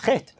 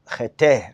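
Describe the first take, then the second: First: The word has one syllable, ending in t. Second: The word has two syllables, ending in a vowel. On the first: The speaker calls it right. "The word chet is always pronounced like this" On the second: The speaker calls it wrong. "you would say chata, chete, or something like that"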